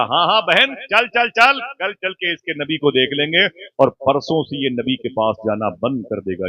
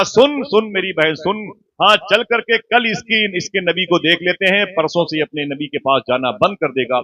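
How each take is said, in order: First: Scheming aunt. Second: Emphatic aunt. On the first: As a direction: voice the aunt agreeing, a bit raised. (खाला की ऊँची, उत्सुक हामी) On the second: (खाला का ज़ोरदार, ऊँची आवाज़ में दोहराया जुमला) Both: Acted. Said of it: "जुमला रिवर्स करता हूँ साहिबो".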